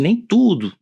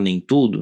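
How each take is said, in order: First: "nem tudo" com "tudo" mais alto e forte; ênfase firme em "tudo" em "nem tudo". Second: Said in the usual way. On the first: Shown as a demonstration. (destaque em "tudo" em "nem tudo") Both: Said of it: "Quando eu falo nem tudo".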